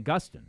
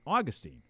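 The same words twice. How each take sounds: First: It uses the Northeastern pronunciation of the name. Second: It uses the Florida pronunciation of the name. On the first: "when I grew up, it was St. Augustine" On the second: "down in Florida, it's St. Augustine"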